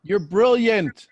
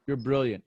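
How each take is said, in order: First: "brilliant" stretched high and loud; loud, drawn-out "brilliant" that falls at the end; emphatic praise. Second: Said in the usual way. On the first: Real, not acted. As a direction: proclaim it slowly, punching "brilliant". Coach affirms client emphatically, then repeats.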